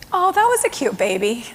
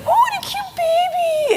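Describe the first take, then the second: First: Gentle, settled remark to the clerk; calmed down. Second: Put-on very high, slow baby-talk coo; cooing over a baby. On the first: Retold or imitated. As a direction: speak evenly, the anger gone. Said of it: "he'd calmed down enough". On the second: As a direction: gush over the baby like a doting clerk. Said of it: "gooing and gawing over the baby".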